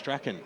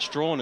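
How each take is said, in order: First: The name is said as Strachan. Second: The name is said as Strawn. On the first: The speaker calls it right. "it's Strachan" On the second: The speaker calls it wrong. "So it's not Strawn"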